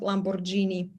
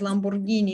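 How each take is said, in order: First: The g in the middle is soft. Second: The g in the middle is hard. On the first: The speaker calls it wrong. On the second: The speaker calls it right. "it would always be pronounced as G"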